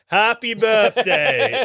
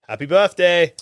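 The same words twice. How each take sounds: First: It is said in a put-on Tabaxi voice. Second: It is said in his normal voice.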